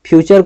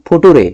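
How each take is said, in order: First: It is said 'fyoo-cher' with a 'ch' sound. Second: It is said 'fu-too-ray' with a 't' sound. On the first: The speaker calls it right. "फ्यूचर को" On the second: The speaker calls it wrong. "फुटूरे पढ़ते थे"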